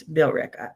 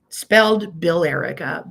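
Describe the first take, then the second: First: "Billerica" squeezed to BILL-rih-ca, middle dropped; locals' "Billerica", quick, three syllables; local pronunciation. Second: "Billerica" said slowly, every syllable: bill-ER-i-ca; spelled-out pronunciation. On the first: Telling chat how residents say it, "Billerica" clipped. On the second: Explaining town spelling to chat, "Billerica" slow and spelled out. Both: Shown as a demonstration. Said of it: "but if you live there".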